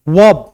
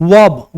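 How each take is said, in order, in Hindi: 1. यह v आवाज़ से शुरू होता है। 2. यह v आवाज़ से शुरू होता है।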